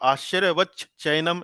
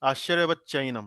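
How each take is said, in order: First: The middle ch is said fully and separately. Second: The middle ch is short and blended in. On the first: The speaker calls it wrong. "ऐसे नहीं पढ़ेंगे" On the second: The speaker calls it right. "बीच में छोटा सा च का आभास देते हुए"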